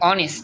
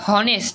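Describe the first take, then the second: First: The word begins with a vowel sound. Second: The word begins with an h sound. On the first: The speaker calls it right. "অনেস্ট বলি" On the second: The speaker calls it wrong. "আমরা কিন্তু বলি না হনেস্ট"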